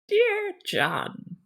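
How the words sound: It is said in a put-on old lady voice.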